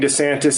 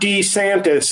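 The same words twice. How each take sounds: First: The first syllable is a short 'duh' sound. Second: The first syllable is a long 'dee' sound. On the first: This is how most people say the name. "Everybody's been saying DeSantis" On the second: This is how the man himself says his name. "he said it like Wile E. Coyote"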